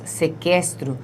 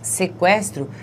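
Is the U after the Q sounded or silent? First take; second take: silent; sounded. First: The U after the Q is silent. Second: The U after the Q is sounded. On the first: The speaker calls it wrong. "Nós não falamos sequestro" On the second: The speaker calls it right. "esse U é pronunciado"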